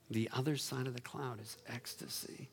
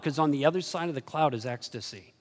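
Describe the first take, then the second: First: Soft echo. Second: Said in the usual way. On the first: Shown as a demonstration. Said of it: "quiet repeat of line 36". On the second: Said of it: "first take before echo".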